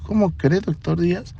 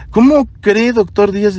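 First: Much softer, gentle mock repeat of her words; soft teasing echo. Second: A hint of a nervous young woman protesting; flustered nurse. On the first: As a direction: hand her words back quietly, teasing. Doctor softly echoing her words. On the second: Flustered nurse denying discomfort.

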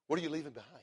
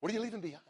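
First: Said in the usual way. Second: "What are you leaving behind?" said again higher, with weight on "you"; higher repeat. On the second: Shown as a demonstration. Preacher pressing the question home to the listeners, higher on "you". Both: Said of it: "repeated question, second raised".

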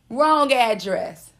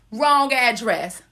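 First: Wrong address said slowly, each word weighed; sassy slow repeat; drawn out, deliberate. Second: Slow, deliberate. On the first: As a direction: let it sink in. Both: Shown as a demonstration. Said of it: "repeated slowly".

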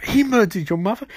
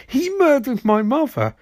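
First: Raised-pitch incredulous question; hammed-up disbelief, voice pitched up; mock shocked echo. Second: Very high, hammed-up insistence; mock anguished confirmation. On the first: Iris repeats Barry's revelation back, mock shock. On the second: Barry confirms the murder to Iris, mock anguish. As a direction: wail it back as a confirmation.

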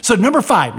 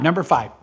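First: Number five called out higher and louder; emphatic announcement. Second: Said in the usual way. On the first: Shown as a demonstration.

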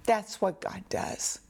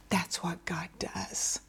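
First: Said in the usual way. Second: Soft unvoiced whisper, much quieter. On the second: Real, not acted. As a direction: breathe it as a secret. Repeated line, first take whispered.

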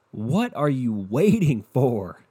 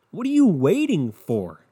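First: Said in the usual way. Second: Higher, louder, slow demanding question; exasperated high plea. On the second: Real, not acted. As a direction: push them to leave, pitched up.

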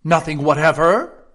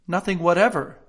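First: "Nothing whatever?" loud, rising at the end; insistent question. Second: "Nothing whatever" as a statement, falling at the end; firm answer. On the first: King pressing Alice, "Nothing whatever?" loud and questioning. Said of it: "persisted the king". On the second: Alice answering the king, "Nothing whatever" firm and falling. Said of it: "said Alice". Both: A narrator's reading.

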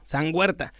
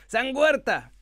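First: Said in the usual way. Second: San Huerta raised high; reverent saint call. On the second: Shown as a demonstration. (San Huerta en tono alto y solemne) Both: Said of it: "como un santito".

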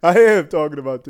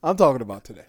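First: "am" punched louder; stress on am. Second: Laughing through the repeated line; laughing insistence. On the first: Insisting to his friend, "am" hit hard and loud. Insisting on breaking fast today. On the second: Friend pushing about breaking fast, laughing. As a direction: giggle while pressing the point. Teasing friend over iftar plans. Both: Real, not acted.

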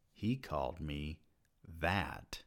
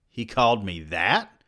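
First: Much softer, flat, falling; numb statement. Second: Rising, stunned question; shocked question. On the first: Narrator repeating the insult to himself, numb and quiet. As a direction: let it sink in quietly. Stunned inner thought. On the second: Narrator thinking after the dean's insult, shocked question. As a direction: ask it in disbelief. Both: A narrator's reading.

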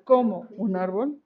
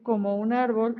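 First: "como" stressed with a questioning rise, as in "cómo". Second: Said in the usual way. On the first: Shown as a demonstration. Teacher shows a student the accented "cómo" with stress on it. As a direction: lean on "como" like "cómo", tune rising. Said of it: "cuando le damos ese énfasis de "cómo". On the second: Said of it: "es bien distinto al".

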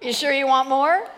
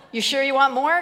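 First: Teasing. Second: Laughing. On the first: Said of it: "teasing question to the crowd". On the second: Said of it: "repeated with a laugh". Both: Real, not acted.

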